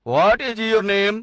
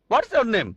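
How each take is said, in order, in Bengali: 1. "What is" দুটি পূর্ণ শব্দ হিসেবে উচ্চারিত হয়। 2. "What is" সংক্ষেপে "what's" হয়ে যায়। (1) "কোন ইংরেজি বলবে এ আর কেমন ইংরেজি" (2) "কোন ইংরেজ লোক হোয়াটস ইউর নেম"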